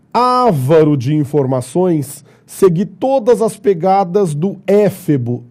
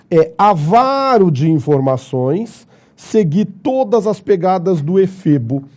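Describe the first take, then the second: First: "Avaro" on á, "éfebo" on é; reading the errors aloud. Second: "avaro" stressed on va, "efebo" on fe; corrected reading. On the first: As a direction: read the faulty sentence as written. (leitura dos erros: "Avaro" e "éfebo") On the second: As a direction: read it back with the right stress. (leitura correta: "avaro", "efebo") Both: Shown as a demonstration. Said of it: "Tudo errado".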